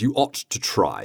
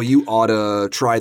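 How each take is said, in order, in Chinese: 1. 'ought to'的两个词都完整发音。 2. 'ought to'连读成一个词，'oughta'。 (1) "it is a fairly formal word" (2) "We'll probably just transform that into oughta"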